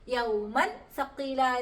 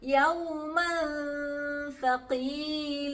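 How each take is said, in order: First: The n sound is pronounced fully and clearly. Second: The n sound is hidden before the next letter. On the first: The speaker calls it wrong. "എന്ന് നമ്മൾ വായിക്ക് ഓതാൻ പാടില്ല" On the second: The speaker calls it right. "ആ തൻവീനിനെ നമ്മൾ അവിടെ മറച്ചു പിടിക്കുകയാണ്"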